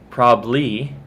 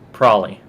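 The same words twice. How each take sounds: First: The word is said faster, slightly shortened. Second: The word is heavily reduced and run together. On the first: The speaker is a little rushed. "If I'm a little bit in a rush" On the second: The speaker is being totally lazy. "if I'm just totally lazy"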